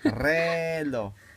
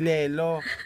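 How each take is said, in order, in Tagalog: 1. Nagsisimula ang salita sa pinagulong na tunog na R. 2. Nagsisimula ang salita sa tunog na L. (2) "Hindi lelo"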